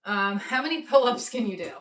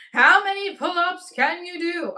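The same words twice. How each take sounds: First: Said in the usual way. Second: Louder, higher repeat; excited shout. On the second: Real, not acted. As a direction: call it out to the chat. Repeats poll question louder.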